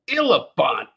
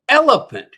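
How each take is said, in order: First: The vowels are said in a New Zealand accent. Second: The vowels are said in a standard accent. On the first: The speaker calls it wrong. "not elephant" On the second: The speaker calls it right. "It's elephant"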